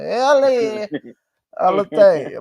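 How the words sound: It is said in a Cuban, Tony Montana-like accent.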